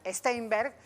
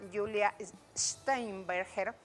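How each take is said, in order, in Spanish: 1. La st inicial suena como una st normal. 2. La st inicial suena como sht alemán. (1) "estamos acostumbrados al Steinberg, pero no, no es la, la pronunciación correcta" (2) "el S T en alemán"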